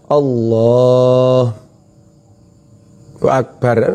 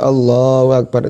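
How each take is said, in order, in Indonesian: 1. Ada jeda di antara kedua kata itu. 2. Kedua kata itu tersambung tanpa jeda. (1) "namanya berhenti di tengah jalan, tidak boleh" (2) "itu dengar semua"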